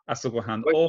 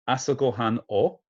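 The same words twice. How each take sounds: First: It is said at normal speed. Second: It is said very slowly.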